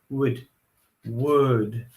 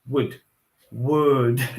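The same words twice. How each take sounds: Both takes have the same delivery.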